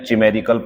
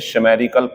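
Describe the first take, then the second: First: The word begins with a ch sound. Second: The word begins with a sh sound. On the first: "ये दोनों गलत है" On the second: "ये दोनों गलत है"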